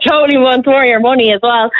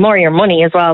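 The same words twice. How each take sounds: First: "Totally wants more of your money" said higher through real laughter; laughing. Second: Said in the usual way. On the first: Real, not acted. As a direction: laugh as you repeat the joke. Repeats punchline while laughing.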